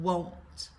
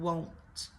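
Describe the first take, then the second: No difference in how they are said.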